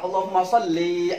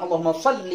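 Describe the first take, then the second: First: The final vowel of shalli is drawn out long. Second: The final vowel of shalli is kept short. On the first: It addresses a female. The speaker calls it wrong. "Jadi panjang" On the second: It addresses a male. The speaker calls it right. "Yang benar adalah"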